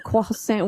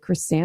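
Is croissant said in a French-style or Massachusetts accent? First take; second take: French-style; Massachusetts. First: It is said with a French-style pronunciation. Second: It is said with a heavy Massachusetts accent. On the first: "We didn't say it like that" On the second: "with a heavy Worcester accent"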